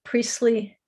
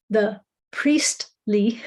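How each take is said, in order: First: Said in the usual way. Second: "priestly" said very slowly, syllable by syllable; careful correction. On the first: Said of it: "almost said policely". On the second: Real, not acted. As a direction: carefully separate "priest" and "ly" in "priestly" after a slip. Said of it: "I did just say policely".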